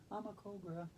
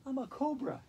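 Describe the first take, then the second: First: Breathy snake hiss of a whisper; whispered cobra hiss, mock menacing. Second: Proud cobra. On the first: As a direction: hiss it like a cobra, barely voiced. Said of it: "cause I am a cobra". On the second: Pretend. Declares herself a cobra.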